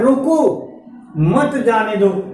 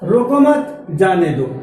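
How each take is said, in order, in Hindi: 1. विराम पहले शब्द के बाद आता है। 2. विराम दूसरे शब्द के बाद आता है। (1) "यहाँ पे एक शब्द के बाद कामा लगा" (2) "जैसे रोको मत, अब हम थोड़ा सा विराम देंगे"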